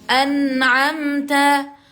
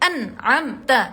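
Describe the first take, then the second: First: The n is said with a short hum. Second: The n is said with no hum. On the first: The speaker calls it right. "tapi an'amta" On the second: The speaker calls it wrong. "tidak dibaca an'amta"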